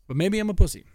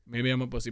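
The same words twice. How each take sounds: First: Louder, higher self-mocking jab; loud self-mockery. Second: Said in the usual way. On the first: Real, not acted. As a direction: blurt it out at yourself.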